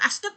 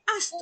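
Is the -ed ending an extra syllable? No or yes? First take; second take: yes; no. First: The -ed ending is an extra syllable. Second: The -ed ending adds no extra syllable. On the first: The speaker calls it wrong. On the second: The speaker calls it right.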